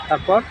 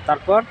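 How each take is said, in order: No difference in how they are said.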